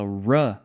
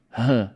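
First: "ruh" com R retroflexo inglês; R americano. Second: "huh" com R aspirado, som de H; R brasileiro. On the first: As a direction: enrole a língua no R de "ruh". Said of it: "são fonemas completamente diferentes". ("ruh" com R de americano) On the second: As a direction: sopre o R na garganta em "huh". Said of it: "chega pro americano e fala". ("huh" com R brasileiro aspirado) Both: Shown as a demonstration.

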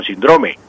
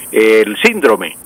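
First: Síndrome corrected to sin-DRO-me; stress on middle syllable. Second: Síndrome as slow SÍN-dro-me; common Colombian stress. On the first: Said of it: "eh, perdón". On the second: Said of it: "lo más común aquí es". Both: Shown as a demonstration.

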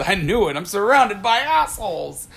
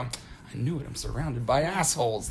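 First: Exasperated movie quote. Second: Much softer, lower, dry delivery; deadpan aside. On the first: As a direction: proclaim it like an annoyed captain. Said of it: "And then he says". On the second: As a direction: turn around and drop it quietly. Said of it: "I turn around and I go". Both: Retold or imitated.

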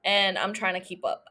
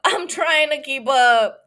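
First: Said in the usual way. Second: Louder, laughing through it; laughing repeat. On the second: Real, not acted.

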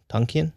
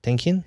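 First: "[name]" said as TAHN-kee-an, questioning; trying a pronunciation. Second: "[name]" with the vowel of "tank", questioning; trying a pronunciation. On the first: Co-host tests the other vowel, "[name]" as TAHN-kee-an. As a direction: say "[name]" with an open ah, rising. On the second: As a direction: say "[name]" with a flat short a, rising. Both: Shown as a demonstration. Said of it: "I don't know if it's Tonkian or [name]".

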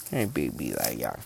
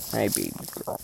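First: Much lower, softer coo to the dog. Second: Said in the usual way. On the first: Real, not acted. Owner cooing low and soft to his dog Leia. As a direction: croon it down low like to a puppy.

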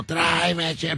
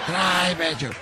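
First: Mock yell. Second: Imitating her demanding yell, a bit higher; half-playful bossy shout; mock yell like he heard it. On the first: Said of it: "pero así grita". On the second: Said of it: "así como me escucha". (grito fingido de la presidenta)

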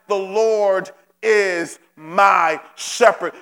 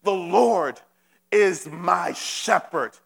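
First: Slow, weighted preacher declaration; a firm, slow refrain. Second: Slow, each word weighed with conviction; measured, heartfelt declaration. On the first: Acted. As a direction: draw the words out and lean on them. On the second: Retold or imitated. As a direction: declare it slowly, fully convinced. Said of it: "David said it with such conviction".

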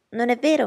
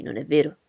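First: Higher, louder appeal; mother appealing to Bingley, higher voice; triumphant Mrs Bennet. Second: Put-on louder young gentleman, asking Elizabeth; Bingley exclaiming. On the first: Acted. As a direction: seek agreement triumphantly. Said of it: "continuò trionfante". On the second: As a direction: toss the question at her lightly. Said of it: "esclamò Bingley".

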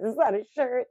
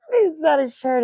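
First: Said in the usual way. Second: "It's not a shirt" said higher and louder, pressing on not; insist: it's NOT a shirt; loud, high self-correction; emphatic correction. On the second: Shown as a demonstration.

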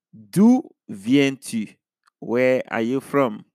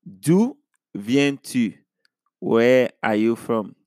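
Both takes have the same delivery.

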